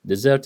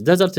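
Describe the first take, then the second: First: DeSERT, the verb, weight at the end; desert with a weak first syllable; stress on second syllable. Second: DESert, the noun, weight up front; desert with a weak last syllable; stress on first syllable. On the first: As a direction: hit SERT in desert. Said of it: "desert is a verb". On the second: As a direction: hit DE in desert. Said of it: "desert is a noun". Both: Shown as a demonstration.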